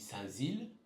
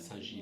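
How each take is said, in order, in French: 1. La deuxième partie commence par un son 'z'. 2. La deuxième partie commence par un son 'zh'. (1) "si je dis Saint-Zile, il y en a qui vont me reprendre" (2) "tu dis pas Saint-Gilles?"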